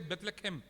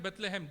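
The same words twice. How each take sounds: First: It is said with the Hebrew pronunciation. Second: It is said with the familiar English pronunciation. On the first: The speaker calls it right. "They say Bethlehem. That is how it is pronounced" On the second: The speaker calls it wrong. "in actually Hebrews, it is not Bethlehem"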